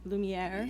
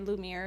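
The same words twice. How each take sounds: First: The name is said with a French pronunciation. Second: The name is said with a plain English pronunciation. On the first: "It is French, so a lot of people do try to pronounce it like" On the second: "or they just say Lumiere and ask me if it's Disney related"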